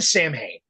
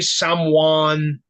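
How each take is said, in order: First: It sounds like 'Sam Hain', with an 'h' sound. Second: It sounds like 'sow-in', with no 'h' sound. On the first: This is the speaker's own way of saying it. "I'm going to call it Sam Hain" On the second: This is how others say it, the real way. "there's people that's that say someone, and I guess that's like the real fucking way to say it"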